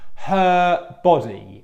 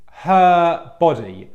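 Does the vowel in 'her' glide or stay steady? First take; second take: steady; steady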